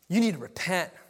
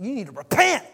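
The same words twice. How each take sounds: First: It is said in the speaker's plain accent. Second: It is said in a forceful Southern accent.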